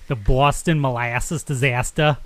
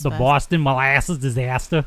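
First: The word disaster is said with careful, crisp enunciation. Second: The word disaster is said quickly and casually. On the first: The speaker calls it right. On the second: The speaker calls it wrong.

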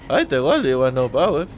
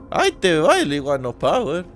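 First: The Shaggy voice is pitched lower. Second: The Shaggy voice is very high-pitched.

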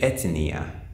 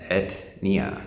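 First: An extra vowel sound follows the t. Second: The t joins the n with no vowel between. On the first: "you'll hear Brazilians say" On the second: "That's how we use in English, we pronounce this"

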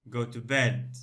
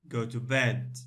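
No difference in how they are said.

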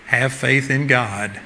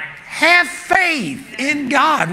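First: The words are said in a calm tone. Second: The words are said in an exasperated tone. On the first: A gentle, ordinary reply. The speaker calls it wrong. "I don't believe it was like" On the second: The speaker is frustrated that they still don't understand. The speaker calls it right. "It was like, ... What's wrong with you guys?"

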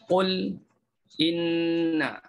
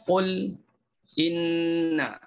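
First: A brief silent stop falls after qul. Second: A brief silent stop falls after qul.

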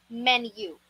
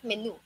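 First: The u is said with a y sound before it. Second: The u is said without a y sound before it. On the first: The speaker calls it right. "Para siyang may isiningit ka na letter Y, ang correct pronunciation dito ay menu" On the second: The speaker calls it wrong. "Which is wrong"

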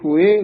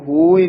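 First: The word ends with the marked final vowel. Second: The word is said the plain, uncorrected way. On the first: The speaker calls it right. "ਹੋਏ ਦੇ ਲਾਂ ਲੱਗੀ ਹੋਈ ਹੈ" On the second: The speaker calls it wrong. "ਇਸ ਨੂੰ ਹੋਏ ਨਹੀਂ ਕਹਿਣਾ"

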